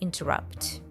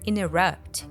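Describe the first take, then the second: First: The T after the N is pronounced. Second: The T after the N is dropped. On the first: "instead of interrupt" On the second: "natives often drop the T sound in the N T letters combination, so we hear interrupt"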